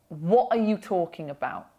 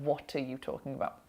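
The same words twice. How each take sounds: First: The T sounds are replaced by glottal stops. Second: The T sounds are pronounced clearly.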